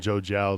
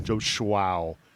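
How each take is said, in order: First: The surname begins with a plain 'j' sound. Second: The surname begins with a 'shw' sound. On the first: The speaker calls it right. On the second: The speaker calls it wrong.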